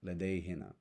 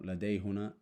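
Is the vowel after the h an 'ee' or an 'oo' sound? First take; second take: ee sound; oo sound. First: The vowel after the h is an 'ee' sound. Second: The vowel after the h is an 'oo' sound. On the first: The speaker calls it right. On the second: The speaker calls it wrong.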